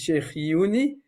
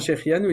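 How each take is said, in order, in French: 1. La fin se prononce comme 'uni' dans la prononciation hassidique. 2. La fin se prononce comme 'anu' dans la prononciation standard. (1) "c'est la prononciation chassidique" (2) "quand ils font Shechianu"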